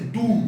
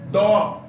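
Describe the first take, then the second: First: The vowel sounds like 'u'. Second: The vowel sounds like 'o'. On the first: The speaker calls it wrong. "no se dice du" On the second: The speaker calls it right. "se dice do"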